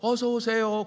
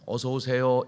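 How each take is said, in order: First: The greeting is said at a very high pitch. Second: The greeting is said at a slightly raised pitch. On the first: The speaker calls it wrong. "너무 높은 톤으로" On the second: The speaker calls it right. "솔 음으로"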